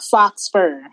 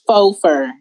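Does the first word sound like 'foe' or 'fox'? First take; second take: fox; foe. First: The first word is said with a final 'x' sound. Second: The first word is said like 'foe', without 'x'. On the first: The speaker calls it wrong. "F-A-U-X fur is not fox fur" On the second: The speaker calls it right. "It's faux fur"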